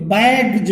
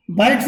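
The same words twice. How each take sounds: First: बैग्स ending in a voiced J sound, "baigj"; सही उच्चारण. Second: बैग्स with a plain S sound at the end; गलत उच्चारण. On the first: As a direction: end बैग्स with a "j" in place of "s". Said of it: "सही उच्चारण है". (बैग्स के अंत में "ज" की आवाज़) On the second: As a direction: end बैग्स on a hissed "s", not "j". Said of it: "नहीं बोलते". (बैग्स के अंत में "स" की आवाज़) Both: Shown as a demonstration.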